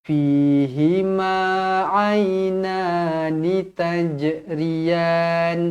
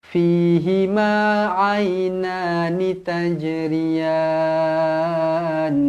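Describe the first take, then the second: No difference in how they are said.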